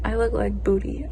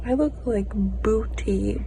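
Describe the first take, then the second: First: Said in the usual way. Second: Whisper. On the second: Real, not acted. Repeats it whispered.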